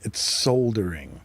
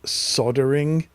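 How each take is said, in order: First: The L in the word is pronounced. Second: The L in the word is silent. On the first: This is how the speaker's own side says it. The speaker calls it right. "it's got an L in it" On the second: This is how Americans say it. The speaker calls it wrong. "what is it you guys call it?"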